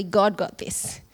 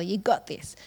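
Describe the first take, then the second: First: GOD punched a little, set against "you"; stress on GOD. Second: Said in the usual way. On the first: Real, not acted. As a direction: lean on GOD to correct the saying. But really, God got this.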